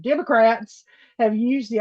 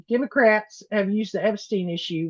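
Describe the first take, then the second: First: Democrats said loud. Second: Said in the usual way. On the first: Shown as a demonstration. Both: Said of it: "I'm gonna say it loud every time he does this".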